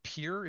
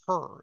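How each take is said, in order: First: The word has a long ee vowel. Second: The word has a short, relaxed vowel. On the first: The speaker calls it wrong. "It's not peer" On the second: The speaker calls it right. "this word is per... sort of a short E"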